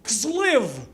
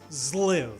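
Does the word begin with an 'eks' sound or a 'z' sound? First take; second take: eks; z. First: The word begins with an 'eks' sound. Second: The word begins with a 'z' sound. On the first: The speaker calls it wrong. "as I pronounce it" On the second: The speaker calls it right. "The X is pronounced like a Z"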